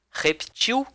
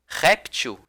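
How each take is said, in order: First: "Reptil" stressed on the last syllable, -TIL; final-syllable stress. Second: "réptil" stressed on RÉP, light ending; first-syllable stress. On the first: Teacher shows the stressed-ending variant, repTIL. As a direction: say repTIL, weight on the end. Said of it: "se ele for na sílaba tônica". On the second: Teacher shows the unstressed-ending variant, RÉPtil. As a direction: punch RÉP and let -til go weak. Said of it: "se for na sílaba átona". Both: Shown as a demonstration.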